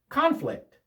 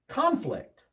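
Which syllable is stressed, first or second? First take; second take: first; first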